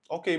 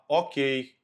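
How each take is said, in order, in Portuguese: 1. É dito de forma neutra, como um simples reconhecimento. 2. É dito com um tom ríspido, bem marcado. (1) "simplesmente leu e diz assim, tudo bem" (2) "pode ter um tom assim"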